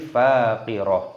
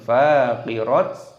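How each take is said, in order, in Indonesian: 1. Kata ini berakhir dengan -ah yang lembut. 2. Kata ini berakhir dengan -at yang dipotong. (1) "tapi faqirah" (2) "ataupun faqirat"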